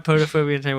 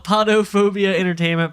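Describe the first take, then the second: First: Podophobia with a long O, "POH-doh"; first syllable of Podophobia rhymes with "go"; alternate pronunciation. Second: Podophobia with an open "ah", "PAH-doh"; first syllable of Podophobia sounds like "pah"; alternate pronunciation. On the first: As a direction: say Podophobia starting like "poe". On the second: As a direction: say Podophobia starting like "pod". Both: Shown as a demonstration. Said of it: "how would you say it".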